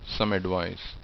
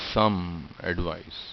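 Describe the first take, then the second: First: The two words flow together without a break. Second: The two words are said apart with a break. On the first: The speaker calls it right. "they're flowing naturally into each other" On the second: The speaker calls it wrong. "I'm not pronouncing the same sound twice"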